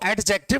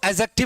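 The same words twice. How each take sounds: First: The d sound is clearly pronounced. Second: The d sound is left silent. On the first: The speaker calls it wrong. "इसको एडजेक्टिव नहीं पढ़ते" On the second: The speaker calls it right. "इसको एडजेक्टिव ही पढ़ते हैं, क्योंकि इसमें डी silent रहता है"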